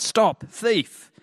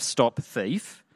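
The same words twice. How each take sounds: First: High, louder mock shout; crying out. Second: Said in the usual way. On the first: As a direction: call out after a fleeing thief, high-pitched. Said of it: "I cried out". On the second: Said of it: "I heard a cry of".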